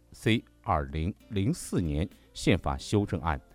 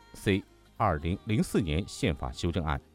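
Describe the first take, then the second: No difference in how they are said.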